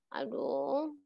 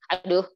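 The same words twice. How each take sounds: First: It is said in a sad tone. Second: It is said in a surprised tone. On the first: "Nah ini sedih kan?" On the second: "Kalau kaget"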